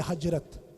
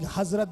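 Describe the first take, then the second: First: The middle consonant is a 'j' sound. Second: The middle consonant is a 'z' sound. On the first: The speaker calls it wrong. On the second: The speaker calls it right.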